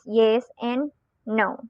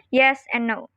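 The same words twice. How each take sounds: First: YES AND NO drawn out, slowly, with a rising tone. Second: YES AND NO with a falling tone. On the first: Teacher showing the tone that conveys more to follow, rising. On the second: Teacher demonstrating the natural neutral tone, falling. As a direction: bring "yes and no" down to a close. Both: Shown as a demonstration.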